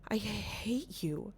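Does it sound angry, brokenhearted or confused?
confused. It sounds puzzled and confused.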